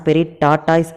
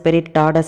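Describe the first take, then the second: First: The second word ends in a 'toys' sound. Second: The second word is a short 'tah-dus'. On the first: This is how the name is written. "அதோட name வந்து பாத்தீங்க அப்படின்னா" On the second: This is how the anime pronounces it. "ப்ரொனவுன்ஸ் பண்ணும்போது ஸ்பிரிட் டாடஸ் அப்படின்னு சொன்னாலுமே"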